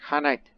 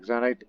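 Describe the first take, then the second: First: The word begins with an 'h' sound. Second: The word begins with a non-h consonant sound. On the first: The speaker calls it right. "it's Hanite" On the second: The speaker calls it wrong. "I originally pronounced it as Xanit"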